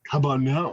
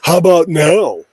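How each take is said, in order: First: The voice sounds low, muffled and slightly distorted. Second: The voice sounds clear and at full level. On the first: The speaker calls it wrong. "It sounds a little muffled" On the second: The speaker calls it right. "Sounds better"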